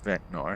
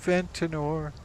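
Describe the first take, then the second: First: The name has no extra middle vowel sound. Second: The name has an extra middle vowel sound. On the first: The speaker calls it right. "Actually, it's Ventnor" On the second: The speaker calls it wrong. "I mispronounced it"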